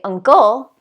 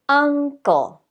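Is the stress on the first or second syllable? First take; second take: second; first. First: The stress is on the second syllable. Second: The stress is on the first syllable. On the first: The speaker calls it wrong. "We don't say uncle" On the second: The speaker calls it right. "we say uncle"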